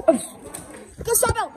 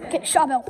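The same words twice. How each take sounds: First: Slow drawn-out call. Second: Said in the usual way. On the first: Pretend. Kid calls to friends to grab Charbel, slow and drawn out. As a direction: stretch every word out slowly. Kids' pretend battle, calling orders.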